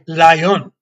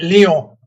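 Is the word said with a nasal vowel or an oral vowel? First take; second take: oral; nasal. First: The word ends with a plain English 'n'. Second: The word ends in a nasal vowel, French-style. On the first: This is how English speakers say it. "We say lion" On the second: This is how the French say it. "the French say Lion, right? ... because it's nasally"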